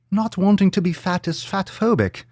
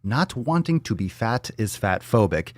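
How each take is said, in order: First: High, mocking English-Irish lilt; muddled English-Irish accent. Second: Said in the usual way. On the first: Podcaster mockingly rereading a tweet, high mock English-Irish accent. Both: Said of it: "I don't know what accent this is".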